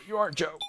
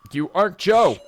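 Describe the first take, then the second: First: High, small voice; distressed denial. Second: High, very loud cry of denial; acted distraught outburst; desperate shout. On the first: Acted. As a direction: say it weakly, pitched way up. Sarah denies the hallucination. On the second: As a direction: yell it, pitch and volume leaping up. Sarah repeats the denial, shouting.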